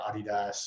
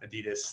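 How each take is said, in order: First: It is said in a non-American way. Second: It is said the American way.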